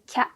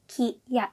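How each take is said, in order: First: One blended syllable, said more quickly. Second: Two separate syllables, said more slowly. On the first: "Lebih disambung, bacanya lebih cepat" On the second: "Kalau yang biasa kan ki ya"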